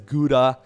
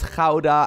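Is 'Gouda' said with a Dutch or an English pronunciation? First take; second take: English; Dutch. First: It is said with an English hard G sound. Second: It is said with a Dutch throaty opening sound. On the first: The speaker calls it wrong. "people pronounce this as Gouda" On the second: The speaker calls it right. "as a Dutch person, I mean, it's Gouda"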